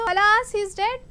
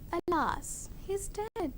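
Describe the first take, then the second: First: It is said at a high, lively pitch. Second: It is said at a low, sad pitch. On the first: The speaker sounds happy about the death. The speaker calls it wrong. "My higher pace is showing that I'm happy that he is dead" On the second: The speaker expresses sorrow about the death. The speaker calls it right. "Lower your pitch"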